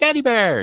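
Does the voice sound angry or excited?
excited. It is said in an excited tone.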